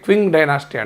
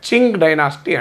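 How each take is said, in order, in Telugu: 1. ఈ పేరు 'kw' ధ్వనితో మొదలవుతుంది. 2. ఈ పేరు 'ch' ధ్వనితో మొదలవుతుంది. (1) "ఇంగ్లీష్లో ప్రొనౌన్స్ చేస్తే క్వింగ్ డైనాసిటీ అంటాం" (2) "అది చైనీస్ ప్రొనౌన్సియేషన్ కనుక చింగ్ డైనాసిటీ అంటున్నారు"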